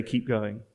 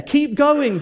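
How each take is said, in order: First: A gentle hushed urging; soft encouragement. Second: Rousing encouragement. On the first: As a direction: Keep going said low and quiet. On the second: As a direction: Keep going called out high. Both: Acted. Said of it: "We'd say".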